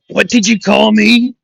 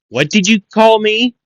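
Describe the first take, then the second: First: It is said in a put-on Bakugo voice. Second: It is said in the speaker's normal voice.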